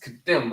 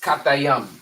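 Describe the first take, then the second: First: The name is said as two short syllables. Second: The name is said as three separate syllables. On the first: "the perfect um pronunciation in the English" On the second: "you will pronounce their name in the Hebrew"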